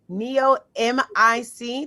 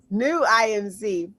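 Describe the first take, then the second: First: The first word has two syllables, like nee-oh. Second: The first word has one syllable, like new. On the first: The speaker calls it wrong. "Did I say that right?" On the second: The speaker calls it right. "New, new I M C"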